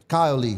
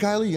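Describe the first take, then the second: First: The name is said as two separate words. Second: The name is said quickly, run together. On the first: The speaker calls it right. "two names" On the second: The speaker calls it wrong. "because they say it so fast"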